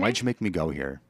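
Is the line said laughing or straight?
straight. The line is said with no laughter. The speaker calls it right.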